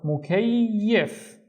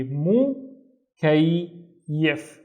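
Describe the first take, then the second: First: "mukayyif" drawn out as one word; slow, stretched "mukayyif"; syllables joined slowly. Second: MU, pause, KAY, pause, YIF; syllable by syllable. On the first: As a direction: link mu, kay and yif slowly without stopping. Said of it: "read them one syllable at a time". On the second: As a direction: break "mu, kay, yif" into three separate beats. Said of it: "pronounce it once with this syllable". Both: Shown as a demonstration.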